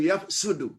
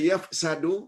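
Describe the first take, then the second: First: The middle syllable has a 'u' vowel. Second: The middle syllable has an 'a' vowel.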